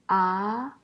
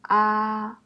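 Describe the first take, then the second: First: The pitch rises from middle to high. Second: The pitch stays high and level.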